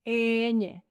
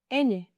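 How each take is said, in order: First: Ñ said slowly as a long "eeeh-nyeh"; slow, level Spanish "Ñ" for learners; drawn-out letter name. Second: Said in the usual way. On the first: Shown as a demonstration. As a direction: stretch the first vowel of "Ñ". Letter name drawn out, then normal.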